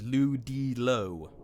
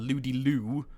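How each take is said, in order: First: The last syllable sounds like 'low'. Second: The last syllable sounds like 'loo'. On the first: The speaker calls it right. "but it's Ludilo" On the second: The speaker calls it wrong. "normally I call him Ludi Lou"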